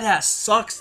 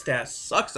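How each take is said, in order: First: Higher, punched complaint; emphatic. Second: Softer, dropped repeat; muttered aside. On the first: Vlogger slams the Kalisto-Ryback match, higher and emphatic. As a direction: spit it out, disgusted. Ranting about a bad match. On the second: Vlogger repeats his complaint softly to himself. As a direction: let it fall away under the breath. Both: Real, not acted.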